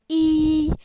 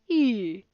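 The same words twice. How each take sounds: First: The pitch stays level and high. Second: The pitch goes down. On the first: "a high tone is like e" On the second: "A falling tone is like e"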